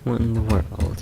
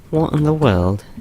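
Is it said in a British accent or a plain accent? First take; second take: plain; British. First: It is said in the speaker's ordinary accent. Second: It is said in a put-on British accent.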